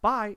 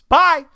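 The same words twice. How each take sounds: First: It is said at a normal, quiet volume. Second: It is shouted very loudly.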